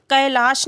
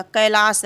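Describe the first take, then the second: First: कैलाश ending in a palatal sh; wrong sibilant. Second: कैलाश ending in a plain S, kailaas; dental s. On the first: Teacher showing the spelling to reject, कैलाश with final sh. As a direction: say कैलाश with a hushing SH at the end. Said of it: "तो दंत सा रहेगा, ना कि तालव्य सा". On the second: Teacher giving the correct form, कैलाश with final s. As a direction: slowly say कैलाश with a dental s, not sh. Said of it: "तो दंत सा रहेगा". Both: Shown as a demonstration.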